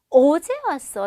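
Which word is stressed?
어제. The emphasis falls on the first word. The point is when the person came. The speaker calls it right. "어제 왔어 라고 해야지"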